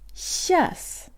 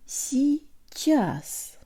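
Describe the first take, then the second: First: The word is shortened to one syllable. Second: The word is said in full, two syllables. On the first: "alternate relaxed pronunciation where the y and i краткое are omitted" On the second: "Now the whole thing"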